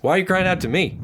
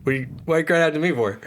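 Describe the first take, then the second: First: Higher, exasperated God; indignant question. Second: Rattled off fast and impatient; rapid exasperated question. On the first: Acted. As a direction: ask it like an impatient God. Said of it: "that is not abridged". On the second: Retold or imitated. God snaps fast at Moses, fed up and impatient. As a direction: fire it off, fed up. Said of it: "Just the first question".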